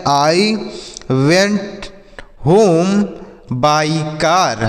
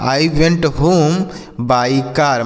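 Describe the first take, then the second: First: Each word spoken separately with pauses; teacher spacing out each word for pupils. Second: Very slow, smooth full sentence; teacher reading the whole line slowly for pupils. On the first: Teacher dictating to pupils, word by word. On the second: Teacher repeating the sentence to pupils, very slow. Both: Shown as a demonstration. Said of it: "तो बोल सकते हैं".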